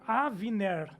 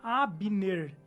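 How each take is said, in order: First: The middle consonant is a v sound. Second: The middle consonant is a b sound. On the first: This is the original form of the name. The speaker calls it right. "seria Avner" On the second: This is the usual local form of the name. The speaker calls it wrong. "a pronúncia do nome dele não seria Abner"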